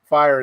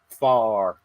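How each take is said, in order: First: The word is said in a plain accent. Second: The word is said in a Southern drawl.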